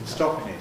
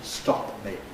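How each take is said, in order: First: The p joins the m without separate release. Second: The p is released separately before the m. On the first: The speaker calls it right. "One single bilabial gesture" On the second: The speaker calls it wrong. "separately releasing the P"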